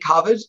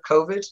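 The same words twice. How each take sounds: First: The word is said in a regional accent. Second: The word is said the common, standard way. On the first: This is how the speaker naturally says it. "I say my accent, just for whatever reason, I say COVID" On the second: This is how most people say it. "instead of COVID"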